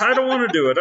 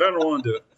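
First: High, hammed-up whiny refusal; panicked refusal. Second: Said in the usual way. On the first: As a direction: squeak out the refusal in a much higher voice. Mimicked refusal, then repeated plainly.

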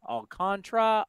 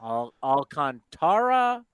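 First: Alcantara said al-CON-truh; three-syllable variant. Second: Alcantara said slowly as al-con-TAR-uh; four-syllable variant. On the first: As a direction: squeeze Alcantara's ending into tra. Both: Shown as a demonstration. Trying both pronunciations in turn.

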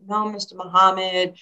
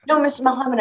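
First: Imitating her modest younger self; mildly bashful reply. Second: High-pitched mock protest from a proud mom; mock insistent mother. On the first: Nervous young athlete answering her idol, mildly bashful. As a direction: answer politely, a touch nervous. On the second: Mother contradicting Muhammad Ali, imitated insistence.

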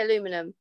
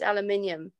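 First: "aluminum" said the American way, four syllables a-LU-mi-num; American pronunciation. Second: "aluminium" said the British way, five syllables al-u-MIN-i-um; British pronunciation. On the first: Shown as a demonstration. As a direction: say "aluminum" with the stress on LU, no extra i. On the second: Retold or imitated. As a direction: say "aluminium" with the stress on MIN and the extra i. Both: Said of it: "It's not aluminum, it's aluminium".

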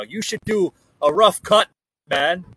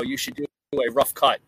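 First: Put-on a deliberately terrible Irish accent, pitched up and louder; mock Irish brogue delivered with a grin; bad Irish accent. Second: Said in the usual way. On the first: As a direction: ham up an Irish lilt, badly. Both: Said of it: "that was the worst impersonation of an Irish accent".

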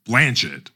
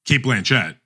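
First: "Blanchett" said carefully, the corrected way; new Blanchett pronunciation. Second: Said in the usual way. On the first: Shown as a demonstration. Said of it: "as we've been saying our entire careers". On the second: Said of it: "It's no longer".

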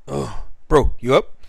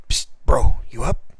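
First: Said in the usual way. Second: Breathy night-time whisper; whispering to a sleeping friend. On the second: Retold or imitated. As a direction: hiss it so you won't wake the house. Waking James at night.

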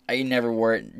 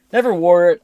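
First: Said in the usual way. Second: Never punched high and loud; emphatic. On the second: Real, not acted. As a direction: hit Never hard and high.

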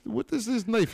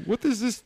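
First: High mock-Russian squeal; high squeaky voice. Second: Squealing high in mock shock; high-pitched outraged squeak; high squeaky voice.

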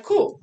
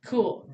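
First: High, loud, stretched "Cool."; hyped. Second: Said in the usual way. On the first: Retold or imitated. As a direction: pump yourself up with "Cool.". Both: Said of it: "I'm like".

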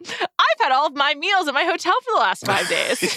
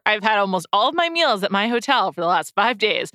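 First: Higher, proud and pleased with yourself. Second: Confessing. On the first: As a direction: boast about it happily. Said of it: "But also". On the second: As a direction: admit it as a full disclosure. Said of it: "in full disclosure". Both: Real, not acted.

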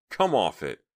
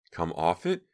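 First: Exasperated retort. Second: Incredulous echo. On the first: Acted quarrel, exasperated retort. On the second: Echoes the retort as question. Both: A narrator's reading.

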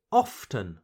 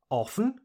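First: Often said OFF-ten; T pronounced. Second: Often said OFF-en; silent T. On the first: Teacher shows learners second option, often with the T. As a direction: tap out a clear T in often. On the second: Teacher shows learners first option, often without the T. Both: Shown as a demonstration. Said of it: "choose to pronounce the letter T or not".

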